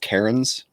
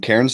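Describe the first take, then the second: First: It is said with two syllables, like Karens. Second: It is said as one syllable, like cans. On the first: "in America, we would call that Karens" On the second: "I will be saying it the proper Australian way"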